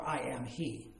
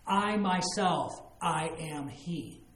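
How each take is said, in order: First: Said in the usual way. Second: "I myself, I am he" slow, each word weighted; emphatic I am. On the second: Shown as a demonstration. Jesus declaring himself to the woman, slow and emphatic. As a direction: lean on "I myself" and draw out "I am he" slowly. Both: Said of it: "It's emphatic".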